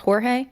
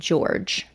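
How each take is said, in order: First: The name has a Spanish pronunciation. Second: The name has an English pronunciation. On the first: This is the name's original pronunciation. "his actual name is Jorge. It's pronounced Jorge" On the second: This is how its owner preferred it. "he preferred the English pronunciation of George"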